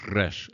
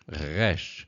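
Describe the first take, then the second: First: The R is rolled with the tongue tip. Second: The R is made in the throat. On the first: "as in the Spanish R, you'll hear the trilled" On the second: "the guttural is a re, re, resh, resh"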